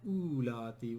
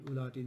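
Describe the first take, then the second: First: The first vowel is long, with the waw. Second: The first vowel is short, without the waw. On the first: The speaker calls it wrong. "not ulati" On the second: The speaker calls it right. "We don't pronounce waw here either"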